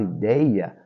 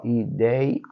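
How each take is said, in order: First: Said in the usual way. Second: "ideia" slowly split as i, dei, a; syllable by syllable. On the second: Shown as a demonstration. Teacher separating syllables for students, "ideia" said piece by piece. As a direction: say "ideia" in separate syllables, pausing before the last. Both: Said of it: "se a gente separar a sílaba".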